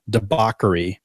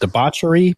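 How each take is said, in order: First: The middle 'ch' is not sounded like 'church'. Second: The middle 'ch' is sounded like 'church'. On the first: The speaker calls it right. "I've been pronouncing incorrectly for years" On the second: The speaker calls it wrong. "I've always said debauchery because there's a C H in it"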